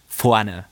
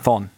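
First: Fronted vowels, ending in an unstressed vowel. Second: Shortened form, ending in the n consonant. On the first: "die Vokale sind ganz weit vorne" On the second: "ein Ossi würde vorn sagen"

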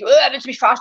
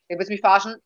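First: It is said in an angry, serious tone. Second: It is said in a joking, playful tone.

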